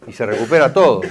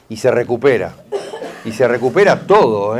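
First: Said in the usual way. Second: Says it through a light laugh; chuckling. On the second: Real, not acted. Healer laughing as he reassures grieving client.

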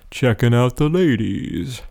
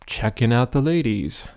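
First: Slow, dopey cartoon-teen voice. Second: Said in the usual way. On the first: Shown as a demonstration. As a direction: say it like a slack-jawed dope. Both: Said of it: "I'm trying to use kind of a dopey voice here".

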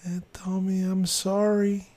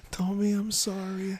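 First: Man doing a woman's voice, high and slow; soft old lady voice. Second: Put-on man doing a high, soft old woman's voice; sweet little old lady apologizing. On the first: Retold or imitated. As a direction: play a sweet apologetic little old lady. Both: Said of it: "A soft little old lady's voice".

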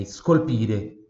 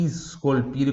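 First: "scolpire" starting on just a puff of S, no I before it; silent-onset S. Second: "scolpire" with a full I before the S, "iscolpire"; wrong added I. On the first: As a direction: slowly demonstrate "scolpire" with a hissed bare S. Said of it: "só o soprinho mesmo do S". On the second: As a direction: say "scolpire" as if it began with a long "ees". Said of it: "como se tivesse um I ali". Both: Shown as a demonstration.

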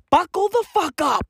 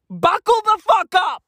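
First: Said in the usual way. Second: Shouted warning. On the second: Acted. Comic repeat of the warning to non-Zulus, now shouted. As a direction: yell it, punching "fuck" hard and loud.

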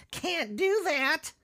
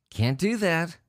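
First: A high, stretched-out sing-song of a scolding; high, slow mock scold. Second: Said in the usual way. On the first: Mocking the souvenir collector, high and slow. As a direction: drag it out high like scolding a child.

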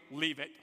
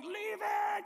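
First: Low-pitched imitation of a stranger; low curt order. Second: High-pitched mock scream; crowd screaming. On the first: Stranger to a man missing his jacket, low order. Stranger coldly advising him. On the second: Crowd in the tunnel to the jacket seeker, screaming. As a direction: imitate a crowd hollering way up high. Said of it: "everybody in the tunnel now screams at me".

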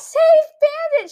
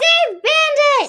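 First: High slow shout; quoting the show. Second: High, slow shouted quote; quoting the show. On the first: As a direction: cry it out like the panicked character. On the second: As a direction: yell it like the sitcom scene. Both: Retold or imitated. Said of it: "She throws her cat".

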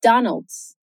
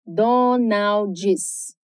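First: Donald's as DON-ældz, ending in a plain ldz cluster; Donald's in American English, no final vowel; English Donald's, clipped ending; English pronunciation. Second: Donald's as DO-naw-djis, extra vowel at the end; Donald's split into Portuguese syllables; Brazilian-style Donald's. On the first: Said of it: "no inglês é". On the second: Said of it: "separar as sílabas de Donald's no ritmo do português". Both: Shown as a demonstration.

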